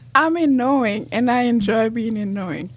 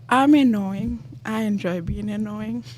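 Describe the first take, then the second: First: It is said loudly. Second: It is said quietly.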